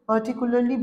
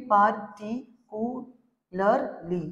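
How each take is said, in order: First: Said in the usual way. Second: "particularly" very slowly as par, ti, cu, lar, ly; five separate beats on "particularly"; syllable by syllable. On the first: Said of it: "अगर हम लोग particularly बोलेंगे". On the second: Shown as a demonstration. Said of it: "पांच बार भांग भांग करके".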